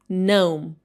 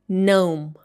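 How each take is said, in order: Both takes have the same delivery.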